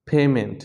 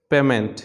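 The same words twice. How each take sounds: First: পেমেন্ট as "PAY-ment"; correct pronunciation. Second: পেমেন্ট as "PEH-ment"; short first vowel in পেমেন্ট; common mispronunciation. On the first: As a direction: glide the first vowel of পেমেন্ট from e to i. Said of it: "এটা হবে আসলে". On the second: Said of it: "আমরা সবসময় বলি". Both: Shown as a demonstration.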